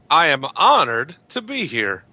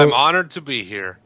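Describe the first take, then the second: First: It is said with exaggerated feeling. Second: It is said plainly, without much feeling.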